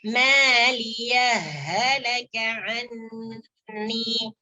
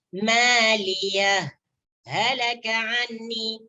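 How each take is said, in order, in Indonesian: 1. Huruf h pada maliyah langsung menyatu dengan halaka. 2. Ada jeda singkat setelah maliyah, huruf h-nya tetap jelas. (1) "hak yang sukun ini dimasukkan ke dalam hak yang kedua" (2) "diizharkan haknya, kemudian di situ berhenti sejenak tanpa mengambil nafas"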